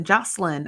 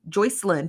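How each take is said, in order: First: Jocelyn with JOSS as the first syllable; "Jocelyn" settled on, falling at the end; corrected name. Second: Joycelyn with JOY as the first syllable; tentative "Joycelyn", oy vowel up front; first guess at name. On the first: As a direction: say "Jocelyn" with a short open o, no oy. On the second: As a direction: say "Joycelyn" starting like the word joy. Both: Real, not acted. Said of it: "I think it's Jocelyn".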